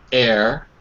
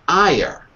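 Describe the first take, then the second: First: The vowels glide together into one sound. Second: Both vowels are pronounced as separate sounds. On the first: The speaker calls it right. "it's eh, eh, air" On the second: The speaker calls it wrong. "not ire, because you're trying to pronounce both vowels"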